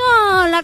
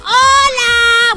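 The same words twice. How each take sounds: First: It sounds tired and unenthusiastic. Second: It sounds loud, lively and cheerful.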